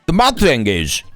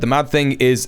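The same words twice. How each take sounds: First: It is read in a special, put-on voice. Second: It is read in a plain, ordinary voice.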